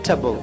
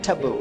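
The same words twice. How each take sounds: First: The vowel is reduced to a short 'tbl'. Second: The vowel is reduced to a short 'tbl'.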